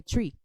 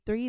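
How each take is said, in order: First: "tree" with a hard t, no th; family dialect "tree", th turned to t; three said as "tree". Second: Said in the usual way. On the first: Shown as a demonstration. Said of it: "they say tree". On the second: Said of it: "when they say three".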